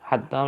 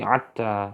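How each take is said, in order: First: It starts with a breathy h sound. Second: It starts with a throaty ain sound. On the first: "Ha menjadi ain" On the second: "menjadi ain"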